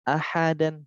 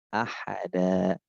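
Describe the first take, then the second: First: The word ends with a short vowel plus n. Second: The word ends with a long vowel, no n. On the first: The reader continues without stopping. "fathah tanwin" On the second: The reader stops at this word. "Fathah tanwin diganti fathah panjang"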